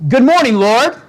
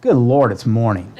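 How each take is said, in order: First: Bright, high, eager good morning; cheerful greeting. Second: Groaning complaint. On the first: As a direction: greet the day with joy. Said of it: "some people wake up in the morning, all right, and say". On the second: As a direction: dread the day, sink the voice. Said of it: "And other people wake up and say". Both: Retold or imitated.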